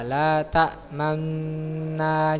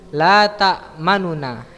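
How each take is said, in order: First: The two n sounds merge into one long n. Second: A faint u vowel separates the two n sounds. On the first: "dengan ismam, dengan mengidghamkan nun sukun yang pertama ke nun sukun yang kedua" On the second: "Dengan raum, yang pertama membaca sebagian besar harokat dhamma"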